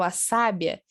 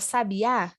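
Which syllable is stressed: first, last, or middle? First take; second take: first; last. First: The stress is on the first syllable. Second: The stress is on the last syllable. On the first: It means a wise woman. "eu sei que sábia é o feminino de sábio" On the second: It names a kind of bird. "como o acento está lá na última letra"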